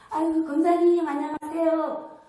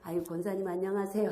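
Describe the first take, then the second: First: It is said higher, friendly and smiling. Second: It is said in an ordinary, plain tone. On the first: This is a warm welcome to a newcomer. "이렇게 톤이 상냥하고 웃으면서" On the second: This is an everyday greeting. "평소에 내가"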